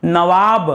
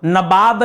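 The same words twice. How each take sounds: First: नवाब said with v, na-vaab; correct pronunciation. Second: नवाब said with b, na-baab; the everyday slip, नवाब as nabaab; wrong common pronunciation. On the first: Teacher gives the right नवाब, navaab with v. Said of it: "नवाब नहीं". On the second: Teacher shows the common wrong नवाब as nabaab. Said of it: "बोलने में क्या होता है कि भाई लखनऊ के नवाब". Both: Shown as a demonstration.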